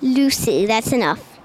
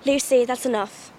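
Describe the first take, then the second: First: Low attempt at English accent; copied English accent. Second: Slow, measured English accent. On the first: Pupil repeating the Narnia line, attempted English accent. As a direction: echo it in a deeper English accent. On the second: Quoting Narnia for a friend, English accent. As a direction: scold gently in an English accent. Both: Shown as a demonstration. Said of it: "I like the English accents from that one".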